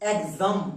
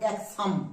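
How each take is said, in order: First: The x is sounded as 'gz'. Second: The x is sounded as 'ks'. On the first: The speaker calls it right. "Vowel আছে তাই এখানে গোয়ে বর্গীয় জ" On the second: The speaker calls it wrong. "Not এক্সাম"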